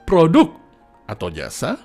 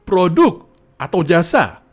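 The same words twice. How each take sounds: First: The pitch rises and falls across the words. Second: The words are hit with strong stress. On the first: "Kalau irama" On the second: "Kalau aksentuasi"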